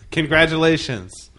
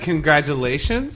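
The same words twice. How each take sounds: First: It is said firmly, with conviction. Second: It rises at the end like a question. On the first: The speaker sincerely welcomes the good news. The speaker calls it right. "you had to say it with conviction" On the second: The speaker doubts the good news. The speaker calls it wrong. "like a question mark?"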